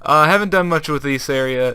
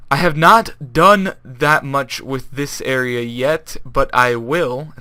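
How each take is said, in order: First: Said in the usual way. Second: Slow, careful, every word laid out; speaking correctly. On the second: Shown as a demonstration. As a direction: talk it slowly and properly, like a commentator. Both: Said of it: "I really need to talk like that".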